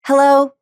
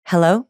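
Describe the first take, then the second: First: High, louder tense Hello; tense Hello squeezed up high; bad high hello. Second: Out-breath hello. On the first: Coach repeats the bad hello, high and tight. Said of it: "here's the bad one". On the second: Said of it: "Versus on the out breath". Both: Shown as a demonstration.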